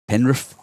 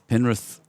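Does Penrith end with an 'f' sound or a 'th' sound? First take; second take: f; th. First: The word ends with an 'f' sound. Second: The word ends with a clear 'th' sound. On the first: The speaker calls it right. "I need a bit more Fs" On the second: The speaker calls it wrong. "I'm enunciating the T H"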